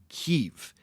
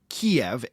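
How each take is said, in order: First: The name is said in the Ukrainian way. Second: The name is said in the older English way. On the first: "the Ukrainian pronunciation of Kyiv" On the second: "stopped using the name Kiev"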